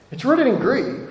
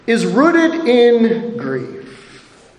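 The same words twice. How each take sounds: First: It's rooted in grief said softer, sinking down; softer echo. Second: Is rooted in grief, each word drawn out very slowly; slow, weighty. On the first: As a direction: repeat it to let it sink in, softer. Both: Real, not acted. Preacher repeats key phrase.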